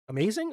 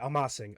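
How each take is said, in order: First: It sounds like the English word amazing. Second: It does not sound like English amazing. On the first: The speaker calls it wrong. "when I first saw the comment, I was like, amazing?" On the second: The speaker calls it right. "I'm saying it right"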